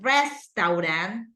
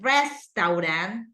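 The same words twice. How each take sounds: First: The word is said with three syllables. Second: The same.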